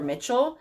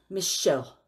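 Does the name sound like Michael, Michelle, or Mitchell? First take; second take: Mitchell; Michelle. First: The name is said like 'Mitchell', with a ch sound. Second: The name is said like 'Michelle', with an sh sound. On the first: Other people have said it this way. The speaker calls it wrong. "or Mitchell" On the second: This is the name's actual pronunciation. The speaker calls it right. "it's Michelle"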